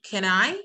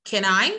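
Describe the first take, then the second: Both takes have the same delivery.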